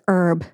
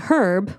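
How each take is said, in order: First: It is said like the food word. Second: It is said like the man's name. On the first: The speaker calls it wrong. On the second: The speaker calls it right.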